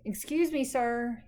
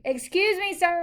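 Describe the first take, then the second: First: It is said softly. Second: It is said loudly.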